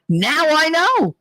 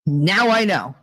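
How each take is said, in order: First: Higher and slow, dawning realization; knowing emphasis. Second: Said in the usual way. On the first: Real, not acted. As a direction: spell out the realization slowly.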